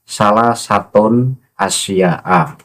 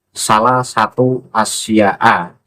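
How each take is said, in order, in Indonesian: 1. Kata kedua berakhir dengan bunyi n tambahan. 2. Kata kedua berakhir tanpa bunyi n tambahan. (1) "membaca hisnul amali salah satun asya'a" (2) "salah satu tanpa tanwin"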